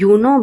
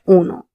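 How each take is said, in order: First: The word begins with a 'you' sound. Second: The word begins with a plain 'oo' sound. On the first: The speaker calls it wrong. "We are not saying uno" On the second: The speaker calls it right. "but uno"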